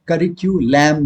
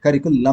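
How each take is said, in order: First: करिक्युलम with a "kyu" sound; teacher shows the wrong करिक्युलम; wrong pronunciation. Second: करिकुलम with a plain "ku"; teacher models करिकुलम; correct pronunciation. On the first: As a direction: say करिक्युलम as the mistake. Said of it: "नहीं बोलते हैं". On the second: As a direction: say करिकुलम, no "kyu". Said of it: "करिकुलम बोलते हैं". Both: Shown as a demonstration.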